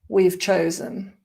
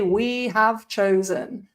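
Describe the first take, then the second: First: We have is squeezed into one syllable. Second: We have is said as two full words. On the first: The speaker calls it right. "it might get even more condensed and become we've" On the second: The speaker calls it wrong. "We don't say we have chosen um, if we're speaking"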